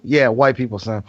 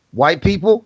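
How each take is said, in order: First: "white people" lower, as a settled answer; dad's matter-of-fact answer. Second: "White people?" higher, as a question; child's puzzled question. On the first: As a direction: confirm "white people" with a falling tune. Retold dad answers his son. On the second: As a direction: ask "White people?" with pitch lifted. Retold son questions his dad. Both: Retold or imitated.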